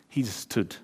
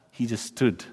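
No difference in how they are said.

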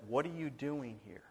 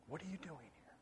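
First: Much softer, low and gentle; quiet voice of God. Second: Breathy whisper, barely audible; gentle whisper. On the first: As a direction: ask it softly, like a still small voice. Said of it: "a still small voice". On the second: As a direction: whisper it like the still small voice. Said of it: "he hears a gentle whisper". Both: A narrator's reading.

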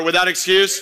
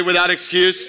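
First: Louder call. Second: Call to repeat. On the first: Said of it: "say it one more time louder". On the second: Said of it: "Can you say". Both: Shown as a demonstration.

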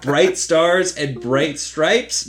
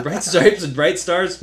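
First: Slow, loud, higher sarcastic question; mocking misquote. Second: High, loud, laughing through the words; laughing misquote. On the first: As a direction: drag it out sarcastically. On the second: Retold or imitated. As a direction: giggle out the swapped lyric. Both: Mocking her wrong anthem words.

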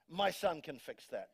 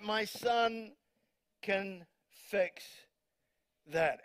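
First: Said in the usual way. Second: My son can fix that spaced out word by word; each word set apart with pauses; hammed-up slow boast; slow, emphatic proud mum. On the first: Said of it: "be like". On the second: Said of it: "she's like".

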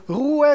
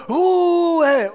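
First: Said in the usual way. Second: Slow, higher, louder "Ruhe" with ring; "Ruhe" sustained with full metallic power; powerful call. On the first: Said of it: "macht nicht Ruhe". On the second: Shown as a demonstration. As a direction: hold out "Ruhe" with big resonance. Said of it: "sondern Ruhe".

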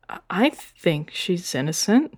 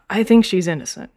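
First: Slow, unsure, stammering start; unsure defence of Eunice; hesitant. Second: Steady, certain statement; firmly. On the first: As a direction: say it without conviction. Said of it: "He didn't know for sure". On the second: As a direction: say it like you mean it. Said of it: "he said more firmly". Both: A narrator's reading.

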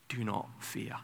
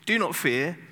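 First: Soft and gentle, like a father soothing; tender fatherly. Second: Louder, higher and firmer; stern command. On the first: Preacher voicing God tenderly to frightened people, soft and fatherly. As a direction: hush the fear out of them kindly. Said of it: "Sounds like a very tenderly, fatherly response". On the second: Moses warning the scared people, louder and firm. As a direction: lay it down as a warning. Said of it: "But then he says this". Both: Shown as a demonstration.

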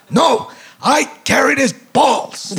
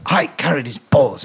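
First: High, slow reading of I carried his balls; Mel's exact reading. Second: Said in the usual way. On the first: Retold or imitated. Director correcting the actress, slow high line reading. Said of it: "He had a very specific way". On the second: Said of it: "And Leslie went".

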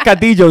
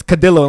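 First: "Cadillo" said with a Spanish ll, like "Cadijo"; corrected mispronunciation. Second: "Cadillo" with a plain L sound; insisted pronunciation. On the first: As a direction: give "Cadillo" the Spanish-style ll, not an L sound. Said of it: "it's Cadillo". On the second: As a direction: say "Cadillo" as Ca-DILL-o, correcting. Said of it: "It's not Cadillo". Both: Retold or imitated.

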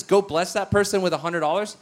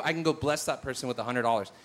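First: "Go bless that person with a hundred dollars" set up with a rising end; quoted prompting. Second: "go bless that person with a hundred dollars" low, soft and quick, falling; matter-of-fact answer. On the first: Retold or imitated. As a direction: lift the end of "dollars", leaving it open. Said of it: "the Holy Spirit says". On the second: Shown as a demonstration. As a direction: toss off "hundred dollars" as settled, pitch dropping. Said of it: "you know what I can do".

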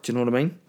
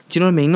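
First: Said in the usual way. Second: Higher, louder insistent question; emphatic. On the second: Acted. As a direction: push the question at them.

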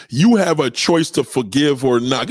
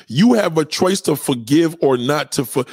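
First: Slow, mocking recital of the saying; imitating disgruntled person. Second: Mock, sing-song recital of the cliché; imitating disgruntled person. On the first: Mocking a disgruntled person's advice, slow and sneering. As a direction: parrot the cliché slowly and mockingly. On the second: Mocking the disgruntled, lightly sneering. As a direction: recite it like a bitter preacher. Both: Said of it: "Disgruntled people talk like this".

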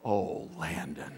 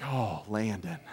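First: Much lower, slow, exhaled Oh, Landon; slow, very low sighing relief; deep relief. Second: Softer relieved sigh on Landon; lower, soft relieved sigh; relief. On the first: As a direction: sink into the relief, drawn out. Repeated relief, deeper. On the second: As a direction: let the fear drain out, gently. Finding the lost son. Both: Retold or imitated.

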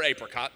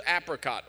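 First: "apricot" with a long A, as in ape; fancy pronunciation. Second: Said in the usual way. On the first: Shown as a demonstration. Speaker correcting himself for fancy diners, "apricot" opened with a long A. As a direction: say "apricot" starting AY-pri, the fancy way. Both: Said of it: "depending on how fancy you are".

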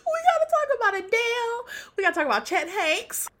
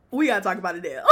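First: High, fast, through real laughter; laughing squeal. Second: Said in the usual way. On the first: Real, not acted. Host repeats the topic after cracking up, laughing squeal.

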